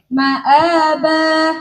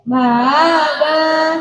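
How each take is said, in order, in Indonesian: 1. Hamzah di tengah diucapkan penuh dan jelas. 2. Hamzah di tengah dilemahkan mendekati vokal. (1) "Yang tahqiq" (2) "Yang tasir"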